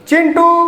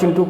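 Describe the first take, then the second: First: The name is called with a long drawn-out vowel. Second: The name is said with a short final vowel. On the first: The person being called is far away. "Chintu गया है दूर... अब हमको उसको बुलाना है" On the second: The person being addressed is close by. "नज़दीक बात करना है, तो एक मात्रिक स्वर का प्रयोग करके बात करेंगे"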